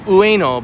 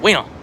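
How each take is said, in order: First: Said slowly with every vowel clearly heard. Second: Said fast with the oo sound dropped. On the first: "I'm saying Ueno" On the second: "if you say it fast, it comes out"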